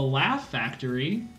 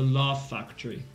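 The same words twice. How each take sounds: First: It is said in an American accent. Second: It is said in a British accent. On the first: "what's called the Laugh Factory in American English" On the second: "There was this British person I knew... you know what they said?"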